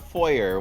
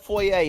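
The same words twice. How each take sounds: First: It is said with an American pronunciation. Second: It is said with a non-American pronunciation. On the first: The speaker calls it wrong. "not foyer. What are you, an American?" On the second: The speaker calls it right. "we pronounce that foyer"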